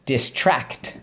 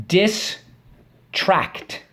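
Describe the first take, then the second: First: Said in the usual way. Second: Distract called high and drawn out; spelling-drill call. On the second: Shown as a demonstration. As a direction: call out Distract higher for the class to echo. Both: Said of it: "Let's go".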